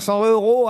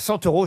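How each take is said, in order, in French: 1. Aucun son t ne lie « cent » à « euros ». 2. Un son t lie « cent » à « euros ».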